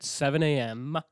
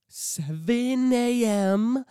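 First: Said in the usual way. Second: SEVEN A M drawn out slowly, high and loud; exasperated emphasis. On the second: Real, not acted. Complaining about the early shift, "Seven A M" stretched high and loud. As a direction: wail out "Seven A M", stretching every part.

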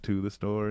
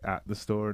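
First: Light stress on "to"; correct-word example. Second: Light stress on "at"; wrong-word example. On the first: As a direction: point out the right word "to" in "to the store". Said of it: "not "to the store". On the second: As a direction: point out the wrong word "at" in "at the store". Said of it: "use, like, the wrong, like, little words". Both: Shown as a demonstration.

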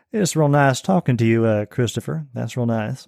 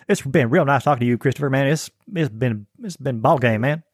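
First: A lightly voiced, polished Southern accent; a hint of a genteel Southern gentleman; refined Southern accent. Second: A lightly voiced, folksy Southern accent; a hint of a good old boy from the South; broad Southern accent. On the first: Guest demos a refined Southern accent to the host. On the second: Guest demos a less refined Southern accent to the host. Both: Shown as a demonstration. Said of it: "some of them are more refined than, than others".

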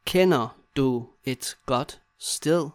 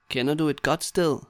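First: Slow, separated words. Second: Said in the usual way. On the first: Shown as a demonstration. Teacher modelling asking a friend for a place, word by word. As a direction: leave a gap after each word.

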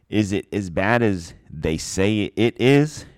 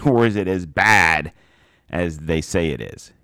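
First: Is it as bad as they say IS IT, the first "is" leaned on with a slow rise; questioning "is it", with the stress on the first "is". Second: "say" hit hard in "as they say it is", falling; stress on SAY. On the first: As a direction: lean on the opening "is" of "is it as bad", slow and rising. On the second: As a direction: punch the word "say", letting the line fall. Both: Shown as a demonstration. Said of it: "the emphasis on two different words".

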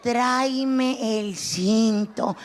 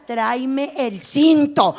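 First: Lower slow menace. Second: Drawn out, slow threatening order; slow menacing order. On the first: Comedian's mother repeating the belt order, low and slow. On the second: Comedian's mother ordering the belt, slow and menacing. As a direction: stretch it out like a promise of a beating. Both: Retold or imitated. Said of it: "todavía me decía".

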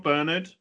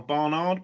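First: "Bernard" as BUR-nud, weak second syllable; higher, rising "Bernard" with an ER first vowel; questioning pronunciation. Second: "Barnard" with two open AR vowels, drawn out; slow, higher "Barnard", both syllables sounded as "ard"; questioning pronunciation. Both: Shown as a demonstration. Trying two pronunciations of a surname.

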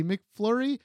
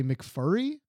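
First: Said in the usual way. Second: "McFurry" with the L dropped; dad's mispronunciation. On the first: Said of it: "he couldn't say McFlurry". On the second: Retold or imitated. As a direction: say "McFurry", no L after the F. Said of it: "he would always say McFurry".

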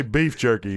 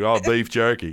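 First: Said in the usual way. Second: Imitating an Australian saying it; put-on Australian accent. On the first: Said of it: "Say this to me". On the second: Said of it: "do a better Australian accent".

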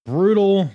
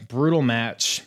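First: High loud exclaimed brutal. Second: Said in the usual way. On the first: Real, not acted. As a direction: burst out with it. Podcast host exclaiming on match.

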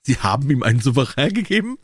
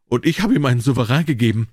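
First: Mock roar, higher pitched; acted, incredulous higher-pitched outburst; amused roar. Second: Understated, acted lament; lightly voiced, embarrassed dismay; mild dismay. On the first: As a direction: roar the question in hammed-up disbelief. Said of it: "brüllte Trevor und konnte sich vor Lachen nicht halten". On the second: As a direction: confess it with a touch of misery. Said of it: "er sank ein Bild des Jammers". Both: A narrator's reading.

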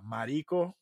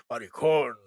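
First: "marico" met de klemtoon op ri; stress on RI. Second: "Maricon" with the weight on the last syllable con; stress on CON. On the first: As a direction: lean on the middle syllable of "marico". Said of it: "it would be more in the emphasis on the ri". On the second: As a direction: hit the final con of "Maricon" like you're mad. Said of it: "more in the emphasis on the con". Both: Shown as a demonstration.

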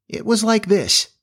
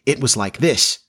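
First: High, lilting imitation attempt; imitating a crow. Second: Understated grave demonstration, rising at the end; grave correction. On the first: Wendy showing Jane how Peter's crow sounded, high imitation. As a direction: pitch it way up, attempting a crowing call. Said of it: "trying to imitate Peter's crow". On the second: Jane correcting her mother about the crow, mildly grave. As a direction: correct them seriously, near your own pitch. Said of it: "said Jane gravely". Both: A narrator's reading.

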